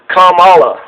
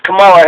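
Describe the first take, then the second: First: "Kamala" stressed on the first syllable, KAH-muh-luh. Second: "Kamala" with the middle syllable stressed, kuh-MAH-luh; wrong stress on Kamala. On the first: Host gives the correct take of the name, "Kamala" as KAH-muh-luh. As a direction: start strong on KAM in "Kamala". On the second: Host contrasts the wrong take of the name, "Kamala" as kuh-MAH-luh. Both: Shown as a demonstration. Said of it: "The emphasis is on Kam".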